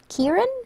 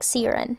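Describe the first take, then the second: First: The name begins with a K sound. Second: The name begins with an S sound. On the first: "I should say it with a K sound" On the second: "it was pronounced like Siren"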